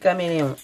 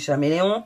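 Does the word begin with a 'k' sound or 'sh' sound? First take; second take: k; sh. First: The word begins with a 'k' sound. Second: The word begins with a 'sh' sound. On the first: "Moi je dis caméléon parce que l'animal ça se dit caméléon" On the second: "ma fille dit que c'est des chaméléons"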